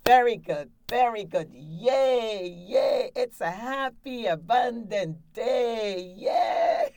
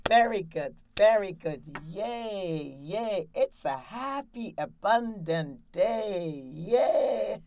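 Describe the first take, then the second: First: Loud, high cheering that rises to a squealed yay; excited cheer. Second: Cheerful cheer. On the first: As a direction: cheer like you just won a million dollars. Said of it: "you're real excited and happy". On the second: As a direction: cheer like a happy coach leading the clap. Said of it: "you're gonna clap". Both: Shown as a demonstration.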